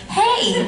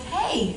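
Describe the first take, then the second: First: Very high, louder comic hey; exaggerated sky-high hello, played for laughs; high-pitched mock greeting. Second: Lightly voiced hello, a bit high; quick raised-pitch mock hey; casual retold greeting. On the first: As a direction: squeak out an imitated greeting way up high. Same greeting replayed, from down there. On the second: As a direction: imitate a casual greeting at the door. Retells Jensen answering his door.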